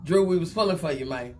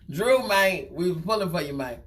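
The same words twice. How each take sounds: First: Said in the usual way. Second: Lightly voiced Terrence Howard, laughing through it; a hint of a mournful Terrence Howard; loosely imitating Terrence Howard. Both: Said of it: "In my, in my Terrence Howard voice".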